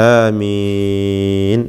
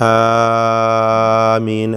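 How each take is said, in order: First: ആമീൻ with the first ആ held only two counts and the മീ drawn out; correct short-vowel amen. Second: ആമീൻ with the first ആ stretched far too long; wrongly long aameen. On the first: Teacher giving students the correct ആമീൻ, measured and slow. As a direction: keep the ആ of ആമീൻ short and lengthen the മീൻ. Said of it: "രണ്ട് ഹറക്കത്ത് മാത്രം". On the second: Teacher imitating how many wrongly say ആമീൻ, over-long. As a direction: overstretch the opening ആ of ആമീൻ, the common mistake. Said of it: "അങ്ങനെയാണ് പലരും പറയാറുള്ളത്". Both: Shown as a demonstration.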